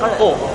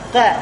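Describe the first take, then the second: First: The vowel sounds heavy, like o. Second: The vowel sounds thin, like a. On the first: The speaker calls it right. "tapi ko" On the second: The speaker calls it wrong. "bukan ka"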